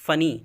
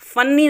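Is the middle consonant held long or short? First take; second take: short; long. First: The middle n is single and short. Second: The middle n is doubled and held long. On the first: The speaker calls it right. "इसे पढ़ते हैं फ़नी" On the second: The speaker calls it wrong. "फन्नी नहीं बोलते हैं"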